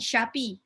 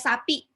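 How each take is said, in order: First: The word begins with a sh sound. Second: The word begins with a plain s sound. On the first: The speaker calls it wrong. "bukan syapi" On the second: The speaker calls it right. "sinnya sapi"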